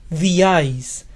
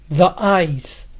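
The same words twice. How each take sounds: The two takes are said the same way.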